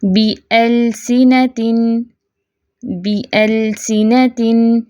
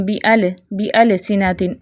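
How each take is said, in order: First: बिअलसिनतिन slow, l held still without extra vowel; steady lam. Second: बिअलसिनतिन quick, stray vowel bounce after l; shaken lam. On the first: Teacher models unshaken silent lam, slow recitation. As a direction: hold the l in बिअलसिनतिन, then move on. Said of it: "हिलाना नहीं है". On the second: Teacher shows how not to read, shaken lam. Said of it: "ऐसे नहीं पढ़ेंगे". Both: Shown as a demonstration.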